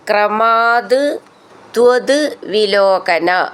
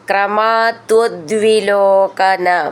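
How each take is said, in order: First: The words are said separately, each one distinct. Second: The words are run together into one word.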